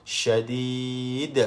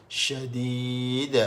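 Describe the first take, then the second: Both takes have the same delivery.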